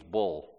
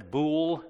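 First: Said in the usual way. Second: A light imitation of a Scottish "bool", the vowel said long and rounded like "bewl"; imitating the Scottish preacher saying "bool" with a long rounded vowel. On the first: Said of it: "he means bull". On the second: Preacher imitating a Scottish YouTuber's "bool", mildly accented. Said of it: "thick Scottish accent".

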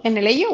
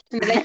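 First: Said in the usual way. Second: Repeating it through a laugh. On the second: Real, not acted. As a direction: laugh while asking.

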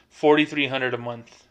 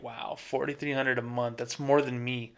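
First: Said in the usual way. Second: A quiet, awed wow at the number, much softer; stunned hush. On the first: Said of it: "And I make". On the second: Retold or imitated. Banker hearing a homeless customer out-earns him, hushed awe. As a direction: let it sink in, amazed and hushed. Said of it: "immediately I'm like".

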